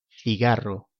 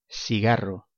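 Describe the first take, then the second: First: The c sounds like English th. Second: The c sounds like an s.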